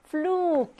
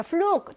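First: "flug" with a drawn-out u; long vowel. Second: Said in the usual way. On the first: Shown as a demonstration. Teacher answers the vowel-length question, long held "flug". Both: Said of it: "역시 길게".

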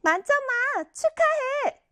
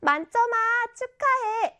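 First: High, slow, insincere congratulations; congratulating with angry face. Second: High-pitched, delighted congratulating voice; hearty congratulations. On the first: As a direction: drag out the praise through a scowl. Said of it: "화난 표정으로". (화난 표정으로 하는 거짓 축하) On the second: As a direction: congratulate a friend with real gusto, pitch lifted. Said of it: "굉장히 축하하는 목소리로". (굉장히 축하하는 목소리) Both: Shown as a demonstration.

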